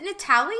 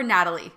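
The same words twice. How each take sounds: First: "Natalie" said the Spanish-influenced way; alternative pronunciation. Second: Said in the usual way. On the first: Shown as a demonstration. Host checking guest's name, alternative pronunciation. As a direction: say "Natalie" with a foreign-style vowel and stress. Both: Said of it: "is it Natalie or Natalie".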